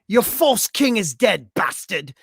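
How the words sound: It is read in a put-on accent.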